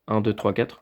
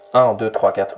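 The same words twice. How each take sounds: First: The radio voice is very faint and weak. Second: The radio voice is strong and punchy. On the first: The speaker calls it wrong. "le son est, est vraiment très faible" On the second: The speaker calls it right. "Vous voyez que là, ça percute"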